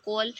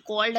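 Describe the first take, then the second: First: कॉल said as "col", no d at the end; final d dropped. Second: Said in the usual way. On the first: Shown as a demonstration. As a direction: drop the d from कॉल. (कॉल को बिना ड के बोलें) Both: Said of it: "तो उसको कॉल".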